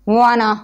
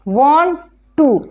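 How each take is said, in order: First: The words blend into one reduced word. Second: Both words are said fully and separately.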